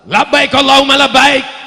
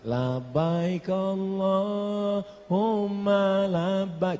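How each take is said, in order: First: It is said loudly, in a rousing Sumatran style. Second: It is said softly, in a gentle West Javan style.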